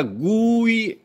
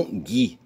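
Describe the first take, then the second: First: Gui stretched as "GOO-ee"; high, drawn-out Gui with the U heard; sounded U. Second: Gui said as "ghee", U silent; rejected Gui. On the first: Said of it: "é pra ser lido". (Gui com U pronunciado e longo) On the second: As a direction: say Gui with no U sound. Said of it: "e não Gui". (Gui sem som de U) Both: Shown as a demonstration.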